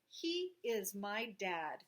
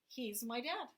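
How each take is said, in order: First: He is said as two separate words. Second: He is shortened into one syllable, he's. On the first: "I could take he and is" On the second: "But most often I say"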